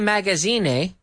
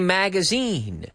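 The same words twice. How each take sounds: First: The last syllable rhymes with 'fine'. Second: The last syllable rhymes with 'seen'. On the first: The speaker calls it wrong. "we don't say ine, we don't say magazine" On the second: The speaker calls it right. "we say magazine"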